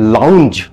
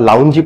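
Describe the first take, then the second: First: Said 'lownj', ending on the j sound. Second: Said 'lown-jee', with an added 'ee' ending. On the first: The speaker calls it right. "যদি লাউঞ্জ উচ্চারণ করেন, দেন congratulations" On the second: The speaker calls it wrong. "লুঙ্গি বা লাউঞ্জি পড়ছেন না তো?"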